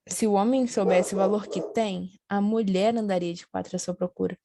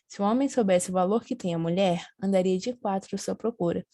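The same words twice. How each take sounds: First: The pause comes after the word 'tem'. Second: The pause comes after the word 'mulher'.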